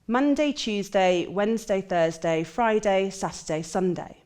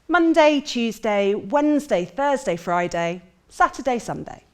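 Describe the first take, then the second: First: The voice is tense with less pitch variation. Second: The voice is full, relaxed and expressive. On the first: The speaker comes across as less confident. The speaker calls it wrong. "having that body really tense starts to change my volume" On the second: The speaker comes across as confident. The speaker calls it right. "my voice is nice and full, I feel relaxed in my body"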